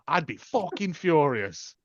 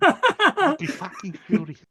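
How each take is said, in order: First: It is said in the speaker's own accent. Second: It is said in a New Zealand accent.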